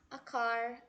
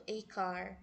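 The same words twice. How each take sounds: First: The article is a short, weak 'uh' sound. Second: The article sounds like the letter name 'ay'. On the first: The speaker calls it right. "A gente pronuncia a" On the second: The speaker calls it wrong. "a gente não pronuncia assim"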